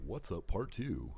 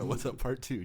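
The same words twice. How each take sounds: First: Slow, booming radio host intro. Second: Loud, high hyped-up show intro; excited announcer. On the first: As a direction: announce it like a DJ. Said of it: "That was a good radio voice". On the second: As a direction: shout it out like opening a show. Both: Pretend.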